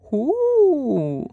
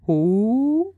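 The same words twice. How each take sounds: First: Much higher hooting owl, pitched way up; high repeated owl hoot; owl asking again. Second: Higher hooting owl question; a drowsy owl calling down from a tree; owl asking. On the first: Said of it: "Stare asked again". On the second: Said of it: "Stare asked from high up". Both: A narrator's reading.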